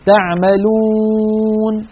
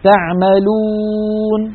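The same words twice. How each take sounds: First: The w sound carries nasal resonance through the nose. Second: The w sound is clear, without nasal resonance. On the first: The speaker calls it wrong. "هذه واو مغنونة ولا يصح هذا" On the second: The speaker calls it right. "هذه واو صافية"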